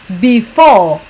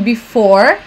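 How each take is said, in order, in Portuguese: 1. O som final do r não é enrolado. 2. O som final do r é bem enrolado. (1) "um britânico geralmente fala before" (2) "um americano falaria mais pra um before ... ele dá uma enrolada um pouco maior no final de before"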